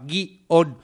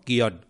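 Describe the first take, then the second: First: Guión split in two, gui-ón; guión stretched into gui-ón; two-syllable guión. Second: Guión as a single syllable, gion; Guión clipped to one syllable. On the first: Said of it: "de una forma más bisílaba". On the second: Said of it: "o lo puedes hacer monosílabo". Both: Shown as a demonstration.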